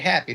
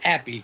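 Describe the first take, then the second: First: The word begins with a clear H sound. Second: The word begins without any H sound. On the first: "they don't say happy" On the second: "they don't want to hit the H"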